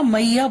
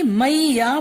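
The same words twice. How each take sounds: First: Said in the usual way. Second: मैया stretched slowly as mai-ya; syllable-by-syllable. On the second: Shown as a demonstration. Teacher giving a similar example, syllable by syllable. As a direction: draw out both parts of मैया. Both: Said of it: "मैया बोला जाता है".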